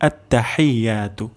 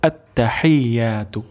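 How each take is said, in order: The two takes are said the same way.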